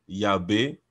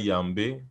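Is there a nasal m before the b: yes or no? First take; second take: no; yes. First: The b is said without a nasal before it. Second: The b is said with a nasal m before it. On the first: The speaker calls it wrong. "On ne dira pas Yabé" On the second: The speaker calls it right. "la nasale a plus de force que le B"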